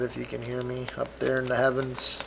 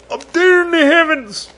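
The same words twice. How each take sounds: First: Said in the usual way. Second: High, louder hammed-up wail; mock emotional wail. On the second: Host to late parents in the heavens, mock emotional wail. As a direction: cry it out to the heavens, overdone. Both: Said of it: "I'm gonna get emotional".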